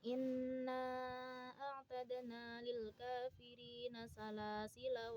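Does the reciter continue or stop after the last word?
continues. The reading runs on past the final word. "Ketika dibaca wasol"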